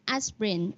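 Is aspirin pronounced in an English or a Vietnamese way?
English. It is pronounced the English way. The speaker calls it right.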